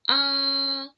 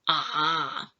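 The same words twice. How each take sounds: First: The pitch stays flat and level. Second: The pitch stays very low. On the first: "For the first tone is flat" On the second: "the pitch for the third tone is very low"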